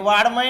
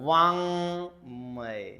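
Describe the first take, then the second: First: The middle consonant is a hard d sound. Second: The middle consonant is a nasal sound. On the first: The speaker calls it wrong. "हे वाड्मय नाहीये" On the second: The speaker calls it right. "नाकातून"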